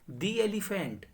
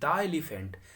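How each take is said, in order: First: 'The' is pronounced with a long 'ee' sound. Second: 'The' is pronounced with a short 'uh' sound. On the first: The speaker calls it right. "उसी तरह से दी elephant" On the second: The speaker calls it wrong. "ना कि द elephant"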